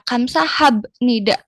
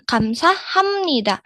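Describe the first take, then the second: First: A b sound comes before nida. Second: An m sound comes before nida. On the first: The speaker calls it wrong. "Dia itu kagok mungkin ya" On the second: The speaker calls it right. "Terdengarnya lebih enak yang kamsaham nida"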